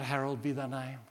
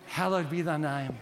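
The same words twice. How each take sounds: First: Harold be thy name, said as a name; mock mishearing. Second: Hallowed said clearly as HAL-lowed; Hallowed be thy name, the right word, firmly; correct hallowed. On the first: Preacher mocks a child's misheard prayer, Harold be thy name. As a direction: Harold for hallowed, a silly mispronunciation. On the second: Preacher corrects the mishearing, Hallowed be thy name. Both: Shown as a demonstration.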